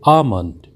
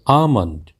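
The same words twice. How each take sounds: The two takes are said the same way.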